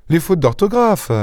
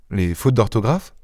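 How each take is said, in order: First: « les fautes d'orthographe » très aigu, tombant, comme une évidence; évidence lancée. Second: « Les fautes d'orthographe? » plus bas et doux, montant en question; question étonnée. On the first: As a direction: appuyer « d'orthographe » haut puis descendre. (« les fautes d'orthographe » dit comme une évidence éclatante) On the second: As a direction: reprendre « fautes » en interrogeant doucement. (« Les fautes d'orthographe? » en question perplexe) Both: Acted.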